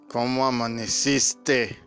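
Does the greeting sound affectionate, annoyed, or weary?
weary. It is said in a flat, tired tone. The relationship has worn down.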